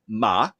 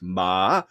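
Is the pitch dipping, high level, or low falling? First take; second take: low falling; dipping. First: The pitch starts low and then drops further. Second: The pitch starts high, dips low, then rises. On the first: It means horse. "the second tone, it starts uh, low and then drops off" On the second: It turns a statement into a question. "It starts high, goes low, goes back up high"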